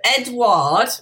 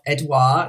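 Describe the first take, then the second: First: The name is said as English Edward. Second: The name is said as French Edouard. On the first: The speaker calls it wrong. "not Edward" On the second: The speaker calls it right. "Edouard, not Edward"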